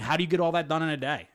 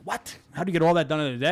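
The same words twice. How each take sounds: First: Said in the usual way. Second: Fast mocking disbelief, repeating it; incredulous. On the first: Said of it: "people in the comments saying". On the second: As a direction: echo the question back in fast disbelief. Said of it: "And I'm like".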